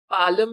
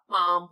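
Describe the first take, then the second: First: An L sound is pronounced before the M. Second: No L sound is pronounced before the M. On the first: The speaker calls it wrong. "ਪਾਲਮ ਨਹੀਂ ਹੁੰਦਾ" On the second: The speaker calls it right. "ਪਾਮ ਹੁੰਦਾ ਹੈ"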